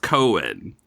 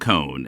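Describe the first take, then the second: First: It is said with two syllables. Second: It rhymes with cone, one syllable. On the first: This is how everybody else says it. "everybody else says Cohen" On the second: This is how New Yorkers say it. "people who like grew up in New York pronounce it cone like ice cream cone"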